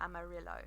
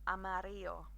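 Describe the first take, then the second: First: The double L is said as an L sound. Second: The double L is said as a Y sound. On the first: The speaker calls it wrong. "we will not pronounce it like a amarillo. That sounded even more Essex" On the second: The speaker calls it right. "the Spanish would say a double uh, L sound as a y"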